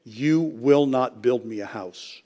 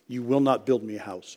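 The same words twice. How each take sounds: First: Slow, with "you" leaned on hard; stress on you. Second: Softer, with "not" pressed; stress on not. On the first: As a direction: make "you" the point, slowly. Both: Acted.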